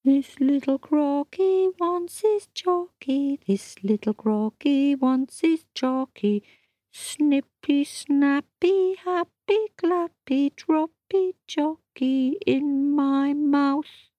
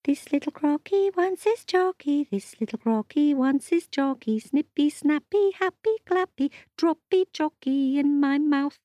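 First: High, slow mournful chant; a sulking croc singing for chocolate; sung, sad little song. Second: High, bouncy croc chant; a dancing croc chanting for chocolate; sing-song chant. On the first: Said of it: "singing sadly to himself". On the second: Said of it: "he did a little dance". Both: Acted.

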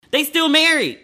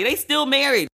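First: 추가 강조로 "married"를 높고 크게; emphatic insisting. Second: "still" hit hard, a bit higher; stress on still. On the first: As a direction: push "married" up high and loud. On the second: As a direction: lean on the word "still". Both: Real, not acted.

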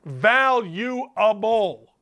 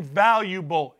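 First: "Valuable" drawn out very slowly, syllable by syllable; slow for emphasis. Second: Said in the usual way. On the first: Shown as a demonstration. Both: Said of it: "I'll say it slow for the boys in the back".

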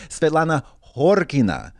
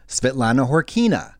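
First: Svetlana Horkina as HOR-kee-na; Russian stress. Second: Svetlana Horkina as hor-KEE-na; English-style stress. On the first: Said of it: "it's so different". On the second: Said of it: "It sounds ho". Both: Shown as a demonstration.

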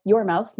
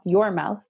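First: "your" pressed a little; stress on your. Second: "your" said again, lightly pressed; stress on your. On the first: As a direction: lean on "your" in "your mouth". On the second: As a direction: repeat "your mouth" leaning on "your". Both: Real, not acted. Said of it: "not your children's mouth".

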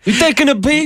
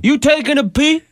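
First: High mocking De Niro taunt; hammed-up tough guy question; De Niro on the toilet. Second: High, mock De Niro tough guy; hammy De Niro taunt; De Niro on the toilet. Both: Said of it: "we'll try it again".

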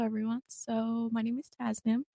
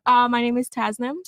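First: Soft, barely projected introduction; too quiet. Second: Louder, projecting her name; a little bit louder. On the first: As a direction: say your name softly, like you're shy. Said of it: "Just speak up a little bit". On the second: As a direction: speak up and say it clearly. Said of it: "Yeah, a little bit louder". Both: Real, not acted.

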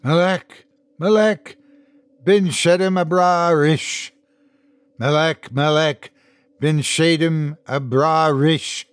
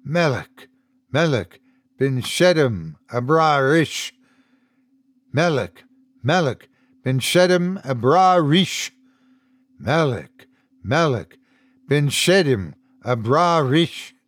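First: Chanted, raised, insistent mantra with pauses between phrases; chanting. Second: Measured, repeated foreign chant; recited mantra. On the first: Ethan kneeling, bitten lips moving, higher insistent chanting. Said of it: "He stopped chanting". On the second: Unseen man reciting in the tower, lightly chanted mantra. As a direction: recite it like a mantra, in even phrases. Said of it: "reciting some mantra in a language other than English". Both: A narrator's reading.

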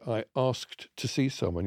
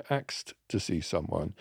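First: Said in the usual way. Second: "axed" said as AKST, K before S; "axed" with the S and K swapped round; London Jamaican "axed". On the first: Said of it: "you don't say". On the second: Shown as a demonstration. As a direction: say "axed" for "asked", like the word axe plus T. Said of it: "you say".

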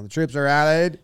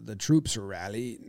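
First: Put-on light old-timey statesman voice; rally the troops like a wartime leader; Winston Churchill. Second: Quiet, posh British officer; British accent. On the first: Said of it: "I have it as Churchill". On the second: Pretend. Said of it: "Say it in an old-timey voice a little bit".

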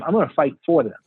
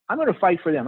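First: "for" said in full and punched; stress on FOR. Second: Said in the usual way. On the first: Real, not acted. Candidate promising voters his support, stress on "for". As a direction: lean on "for", as opposed to against. Contrasts for with against.

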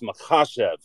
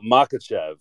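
First: Makhachev with a throaty KH, stressed second syllable; corrected pronunciation. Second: Makachev with a hard K, stressed first syllable; standard American pronunciation. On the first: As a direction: say Makhachev as ma-KHA-shev, throaty kh. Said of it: "he's big on correcting everyone on". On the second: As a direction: say Makachev the default way, MAH-ka-chev. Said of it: "kind of the standard American pronunciation". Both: Shown as a demonstration.

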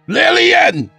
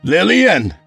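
First: Very high, loud yell of LILLIAN; urgent yell. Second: High, loud call of LILLIAN. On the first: Husband demands wife appear, very high urgent yell. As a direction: scream for her at the top of your range. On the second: Husband forces his way in, loud calling. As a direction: call for her through the house. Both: Acted.

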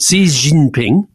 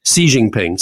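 First: Slow, exaggerated tones on "Xi Jinping", up, down, up; "Xi Jinping" drawn out, the last syllable rising. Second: Said in the usual way. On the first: Shown as a demonstration. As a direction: sing out the tones of "Xi Jinping", ending on a rise. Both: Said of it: "So it goes up, down, up".

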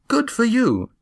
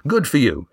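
First: "Good for you" lifted much higher, admiring; proud praise. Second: Firm. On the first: Gar praising Eva's climb, high admiring praise. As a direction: cheer her on up high. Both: A narrator's reading. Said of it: "he said firmly".

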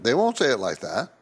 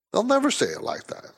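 First: Said in the usual way. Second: Never lifted high for emphasis; never pitched way up, insistent; stress on never. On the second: Real, not acted. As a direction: lean on the word never.

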